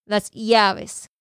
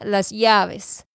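The two takes are said the same way.

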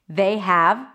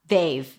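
First: Have is pronounced in full as a separate word. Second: Have is reduced to a v sound.

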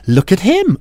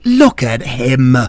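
First: It is said in an admiring, flirty way. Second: It is said in an annoyed way.

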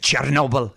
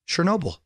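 First: It is said in a put-on Russian accent. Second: It is said in a plain American accent.

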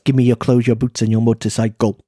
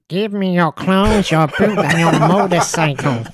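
First: It is said in an ordinary speaking voice. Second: It is said in a put-on cartoon puppet voice.

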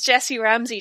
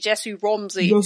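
First: The name is said with a plain vowel. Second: The name is said with an affected, changed vowel.

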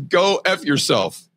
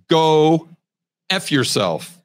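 First: It is said at a normal pace. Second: It is said slowly and drawn out.

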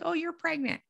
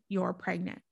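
First: It is said in a casual, offhand tone. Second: It is said in a serious, certain tone.

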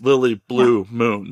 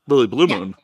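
First: Blue is set apart as its own name. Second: Blue runs together with Moon as one unit. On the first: Blue is a middle name. The speaker calls it right. "do it as blue as your middle name" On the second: Blue Moon is one surname. The speaker calls it wrong. "not Lily Blue Moon"

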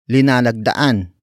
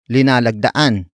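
First: The word begins with the syllable li. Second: The word begins with the syllable li.

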